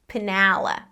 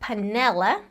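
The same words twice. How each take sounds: First: The middle vowel is an open 'ah' sound. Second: The middle vowel is a mid 'eh' sound. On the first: "let's think about dropping our jaw" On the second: "instead of saying panela, eh"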